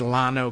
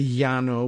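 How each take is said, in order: First: Llano is said with a Texan, English-style L. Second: Llano is said with a Spanish double-L sound.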